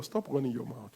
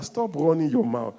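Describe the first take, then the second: First: Quiet, lower repeat; soft low version; softer aside. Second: Firm, louder repeat; louder than the first time; louder command. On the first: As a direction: mutter it to your neighbor. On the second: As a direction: tell your neighbor firmly. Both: Shown as a demonstration. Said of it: "Tell your neighbor".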